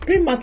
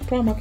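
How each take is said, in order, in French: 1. Le nom se prononce à la française. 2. Le nom se prononce à l'anglaise. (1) "in French" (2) "in English"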